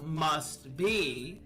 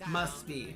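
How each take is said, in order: First: The T at the end of 'must' is pronounced. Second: The T at the end of 'must' is dropped.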